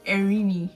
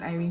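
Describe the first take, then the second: First: The name is said as Erini. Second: The name is said as Irene. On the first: The speaker calls it right. "So I corrected her and I was like" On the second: The speaker calls it wrong. "It's not pronounced Irene"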